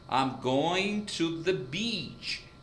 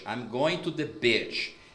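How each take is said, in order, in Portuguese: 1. A vogal em beach é longa. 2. A vogal em beach é curta. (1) "você tem o que a gente chama de I longo. Então, fica beach" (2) "o brasileiro, no português, a primeira palavra que é praia, nós pronunciaríamos bitch"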